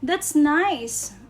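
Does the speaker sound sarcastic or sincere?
sincere. It is said in a sincere, genuine tone. The thing really is nice.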